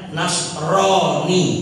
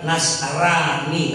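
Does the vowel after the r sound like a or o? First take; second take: o; a. First: The vowel after the r sounds like o. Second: The vowel after the r sounds like a. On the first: This is the Arabic reading. "baca Arabnya Nasroni" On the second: This is the Indonesian reading. "bahasa Indonesia Nasrani karena roh dibaca ra"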